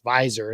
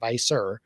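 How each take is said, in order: First: The middle consonant sounds like a z. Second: The middle consonant sounds like an s. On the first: The speaker calls it right. "it's Visor" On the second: The speaker calls it wrong. "not Visor"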